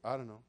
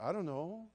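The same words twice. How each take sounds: First: It sounds indifferent and careless. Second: It sounds concerned and thoughtful.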